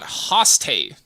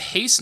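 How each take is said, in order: First: The vowel sounds like 'oh' in 'go'. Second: The vowel sounds like 'ay' in 'day'. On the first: The speaker calls it wrong. "not hoste" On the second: The speaker calls it right. "you say haste"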